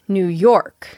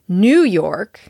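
First: The stress falls on the word York. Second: The stress falls on the word New. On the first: The speaker calls it right. "Be sure to stress York and not new" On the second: The speaker calls it wrong. "I've had a lot of students say New York"

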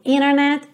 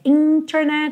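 First: The T after the N is dropped. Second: The T after the N is clearly pronounced. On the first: "às vezes esse T some... eu digo internet" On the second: "ao invés de dizer internet"

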